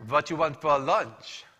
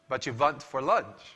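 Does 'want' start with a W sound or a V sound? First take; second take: v sound; v sound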